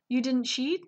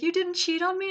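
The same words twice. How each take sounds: First: Mock-sad question, voice lifted; sad retelling. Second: High-pitched, nearly-crying question; mock tearful. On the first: Leo asks his wife if she cheated, mock sad. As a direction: ask it in a hurt, higher voice. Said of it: "feels so bad and, like, sad". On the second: Husband in disbelief to his wife, imitated as nearly tearful. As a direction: imitate someone almost in tears. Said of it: "he's, like, almost in tears".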